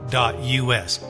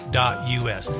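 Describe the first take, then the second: No difference in how they are said.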